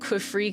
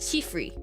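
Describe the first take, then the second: First: The name begins with an English q sound. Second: The name begins with a t-like sound. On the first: "I think I say it like Qwifree" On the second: "reads it as Qifree... when you're like romanizing Chinese sounds, it's like T sound"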